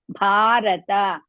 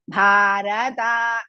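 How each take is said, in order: First: The last two vowels are kept short. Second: The last vowels are dragged out long. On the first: The speaker calls it right. "Rata, both are Hrisva" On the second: The speaker calls it wrong. "don't say Bharata. Don't drag it"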